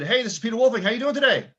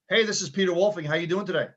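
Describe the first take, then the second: First: "how you doing today?" rising higher and higher at the end; voice going up at the end. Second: Said in the usual way. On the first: Shown as a demonstration. Coach showing a call opener that lifts up at the end. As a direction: let "today" go up instead of down, a little louder. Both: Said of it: "hear how my voice went up at the end".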